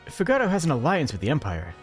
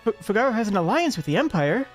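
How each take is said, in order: First: It is read in a plain, neutral tone. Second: It is read hesitantly, with a tinge of fear. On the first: The speaker simply states a fact. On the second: The speaker knows the alliance is dangerous.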